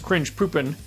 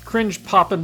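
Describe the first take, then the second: First: The second word has an 'oo' vowel. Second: The second word has a short 'o' vowel. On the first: This is how some regions of Germany say it. "in some regions of Germany, they will pronounce that as cringe poopin'" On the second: This version is acceptable in the United States. "cringe poppin' will work in the United States"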